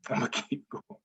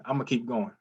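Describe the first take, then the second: First: "I'ma keep going" said softly through a real laugh. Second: Said in the usual way. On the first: Real, not acted. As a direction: laugh it out, almost to yourself. Repeats line, then laughs.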